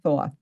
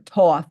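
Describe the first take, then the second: First: The name begins with a th sound. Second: The name begins with a plain t sound.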